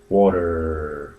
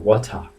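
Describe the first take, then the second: First: It is said in an American accent. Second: It is said in a British accent.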